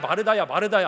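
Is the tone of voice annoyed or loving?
annoyed. The name is called in an irritated, scolding tone. The caller is fed up and rebuking her. The speaker calls it wrong. "이런 어투가 아니라요"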